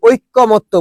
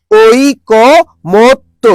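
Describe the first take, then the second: First: ঐকমত্য run together with a doubled k, oikko-motto; common mispronunciation. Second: ঐকমত্য very slowly as oi... ko... mot... to, single k; correct pronunciation by syllables. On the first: Teacher admitting a common mistake, ঐকমত্য said with doubled k. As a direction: say ঐকমত্য wrongly as oik-ko-motto. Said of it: "নিজেরাই ভুল করি". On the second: Teacher drilling students, ঐকমত্য slowly split as oi-ko-mot-to. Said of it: "তাহলে কি বলো তো". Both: Shown as a demonstration.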